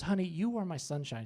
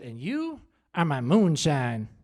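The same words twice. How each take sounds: First: Soft, tender imitation; hushed, affectionate endearment; imitating sweet wife. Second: Slow, lower comic endearment; stretched-out mock declaration of love; mock-romantic blurt. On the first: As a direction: coo it gently as a loving wife. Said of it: "I was so sweet". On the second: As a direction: answer sweetness with drawn-out clumsy devotion. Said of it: "which just blurted out".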